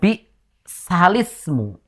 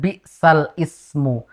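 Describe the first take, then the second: First: The l links straight into the vowel, no stop. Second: A glottal stop separates 'sal' from 'ismu'. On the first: The speaker calls it right. "Sehingga dibaca dengan bi salismu. Jadi langsung lis" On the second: The speaker calls it wrong. "tidak dibaca dengan bi sal ismu"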